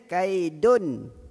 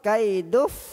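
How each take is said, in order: First: The n sound is pronounced fully and clearly. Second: The n sound merges completely into the f. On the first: "Izhar macam mana bunyi dia? ... itu izhar" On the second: "Kalau idgham"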